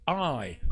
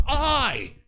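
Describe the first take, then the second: First: Said in the usual way. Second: High, loud, drawn-out I; second "I" punched out with force; emphatic I. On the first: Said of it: "is emphatic". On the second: Shown as a demonstration. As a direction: hit "I" hard and much higher. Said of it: "unless we just say it emphatically".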